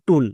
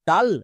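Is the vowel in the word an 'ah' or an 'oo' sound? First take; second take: oo; ah. First: The vowel is a short 'oo' sound. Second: The vowel is an open 'ah' sound. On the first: The speaker calls it right. "ইউ এর জন্য হস্যকার sound হবে" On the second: The speaker calls it wrong. "টাল নাকি টুল?"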